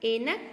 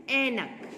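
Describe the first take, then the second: First: ऐनक with narrow e, "enak"; wrong pronunciation. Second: ऐनक with open ai, "AI-nak"; careful model "ainak" for ऐनक; correct pronunciation. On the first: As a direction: say ऐनक starting like "ay". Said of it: "ऐनक कुछ नहीं होता है". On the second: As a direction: hold the open first vowel of ऐनक, loud. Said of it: "क्या होता है?". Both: Shown as a demonstration.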